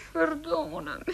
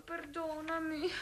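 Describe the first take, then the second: First: Said in the usual way. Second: Slow, hushed and ashamed; ashamed, hushed apology. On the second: Acted. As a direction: barely breathe the apology. Ashamed apology to her lover.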